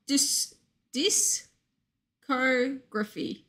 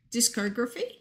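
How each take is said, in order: First: "discography" broken slowly into halting pieces; sounding it out. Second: "discography" said in one go, rising at the end; questioning attempt. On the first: Streamer unsure how you are supposed to say it, sounding out "discography". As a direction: feel out "discography" bit by bit, slowly. Struggling to say a hard word. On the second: Streamer asking is that it, questioning "discography". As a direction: try "discography" whole, as a question. Checking the pronunciation just attempted. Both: Real, not acted.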